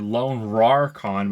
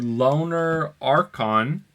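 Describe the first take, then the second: First: The name is split after Lone. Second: The name is split after Loner. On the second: "but I think it's Loner"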